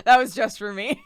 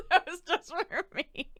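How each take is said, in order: First: Said in the usual way. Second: "That was just for me." through giggles; slow and laughing it out. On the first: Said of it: "funny goof for me". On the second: Real, not acted.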